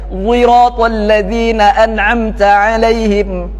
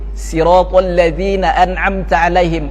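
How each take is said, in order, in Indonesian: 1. Kata pertama dimulai dengan bunyi mirip z yang dibulatkan. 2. Kata pertama dimulai dengan bunyi s biasa. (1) "dengan ismam sad, sautu zai, dimonyongkan" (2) "dengan sin"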